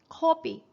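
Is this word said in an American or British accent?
British. The first vowel is a rounded o sound.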